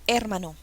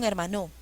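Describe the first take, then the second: First: The stress is on the first syllable. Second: The stress is on the last syllable. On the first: "No, incorrecto" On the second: "Probemos con la última sílaba"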